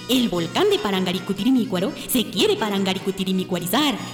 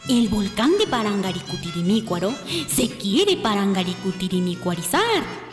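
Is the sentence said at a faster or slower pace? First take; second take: faster; slower. First: The sentence is said at a faster pace. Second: The sentence is said at a slower pace.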